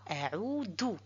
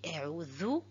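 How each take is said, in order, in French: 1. La consonne du milieu a la langue derrière les dents. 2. La consonne du milieu a la langue entre les dents. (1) "et non pas" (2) "Il faut mettre le bout de la langue entre des incisives. Et je dis a'udhu"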